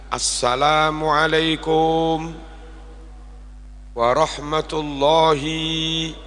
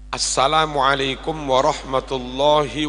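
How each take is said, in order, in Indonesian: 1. Vokal dalam warahmatullahi dibaca panjang. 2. Vokal-vokal dalam warahmatullahi dibaca pendek. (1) "beberapa penceramah kadang begini" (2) "Warahmatullahi itu pendek"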